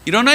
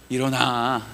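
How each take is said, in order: First: It sounds harsh and scolding. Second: It sounds soft and comforting. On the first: God is rebuking him. The speaker calls it wrong. "혼내는 것 같아요?" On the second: God is comforting him. The speaker calls it right. "다독이는 것 같아요?"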